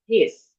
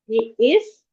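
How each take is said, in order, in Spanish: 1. Las dos palabras se unen en una sola sílaba contraída. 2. Las dos palabras se dicen por separado, completas.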